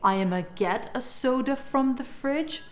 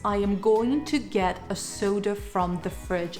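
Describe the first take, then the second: First: 'I am going to' shrinks to a short 'I'ma'. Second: 'Going to' is said fully, every word clear. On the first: "You can either say" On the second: "Take the sentence"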